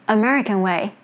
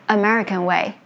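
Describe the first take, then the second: The two takes are said the same way.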